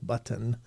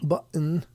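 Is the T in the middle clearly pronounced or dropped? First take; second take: pronounced; dropped. First: The middle T is clearly pronounced. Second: The middle T is dropped, not clearly pronounced. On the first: "it's not like button" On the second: "they don't say T's"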